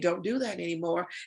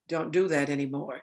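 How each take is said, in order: First: The tone is light and not serious. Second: The tone is firm and serious. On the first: The listener may not take it seriously. "children don't know when to take us serious or not" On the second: The request is meant seriously. "the tone matches the nonverbal"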